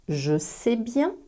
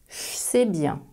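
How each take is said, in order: First: The word je keeps its voiced j sound. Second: The word je sounds like che.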